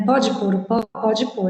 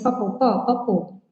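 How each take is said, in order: First: "Pode pôr" with both words complete; full careful form. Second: "papô" squashed from "pode pôr", middle syllable eaten; swallowed syllables. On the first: Teacher decoding the joke for students, "Pode pôr" said in full. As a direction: say "Pode pôr o pó" word by word, unswallowed. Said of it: "o que que isso significa". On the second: Teacher showing how Brazilians eat syllables, "papô" squashed short. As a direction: run it together casually as "papô, pó, papô". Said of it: "a gente fala assim". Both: Shown as a demonstration.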